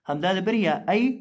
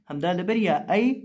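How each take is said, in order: No difference in how they are said.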